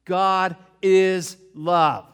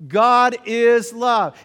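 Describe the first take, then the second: First: "is" stretched slow and leaned on, "God is love" drawn out; stress on IS. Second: "God" punched high and loud, "God is love" slow; stress on GOD. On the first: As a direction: lean hard on "is" in "God is love". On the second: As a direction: hit the word "God" in "God is love". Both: Shown as a demonstration. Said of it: "Can we understand that together?".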